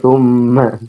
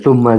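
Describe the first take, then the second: First: The m sound is held long and nasal. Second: The m sound is short and plain. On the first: This follows the recitation rules for the Quran. "Kalau Al-Quran kan summa" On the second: This is an ordinary reading without recitation rules. "Summa saja sudah"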